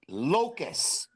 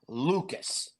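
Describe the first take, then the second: First: The first syllable sounds like 'lock'. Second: The first syllable sounds like 'Luke'. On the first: The speaker calls it right. "the proper pronunciation of his last name" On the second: The speaker calls it wrong. "not Lucas"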